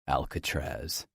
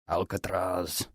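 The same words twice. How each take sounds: First: It is said in a plain, ordinary voice. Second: It is said in a deep Scottish brogue.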